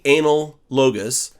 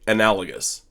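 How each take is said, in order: First: It is split into two separate-sounding words. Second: It is said smoothly as one single word. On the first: The speaker calls it wrong. "Don't say anal logos because that's not correct" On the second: The speaker calls it right. "That's how you pronounce this word"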